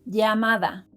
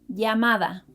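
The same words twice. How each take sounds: No difference in how they are said.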